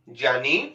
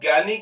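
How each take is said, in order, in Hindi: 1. शब्द 'jy' की ध्वनि से शुरू होता है। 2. शब्द 'gy' की ध्वनि से शुरू होता है। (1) "उसी का वास्तविक उच्चारण ज्ञानी है" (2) "जिसको आप ज्ञानी कहते हो"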